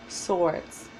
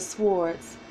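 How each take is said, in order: First: The word is said with a silent W. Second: The word is said with the W sounded. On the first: "just don't pronounce the W" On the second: "I say swords because your words are your swords"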